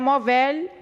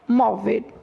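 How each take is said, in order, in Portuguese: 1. A sílaba tônica é a última. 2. A sílaba tônica é a penúltima. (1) "Não é" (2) "A sílaba tônica é a penúltima"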